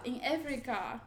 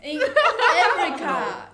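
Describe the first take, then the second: First: Said in the usual way. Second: Drawn out slowly, laughing; slow emphatic hint. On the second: Shown as a demonstration. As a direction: stretch each word out slowly.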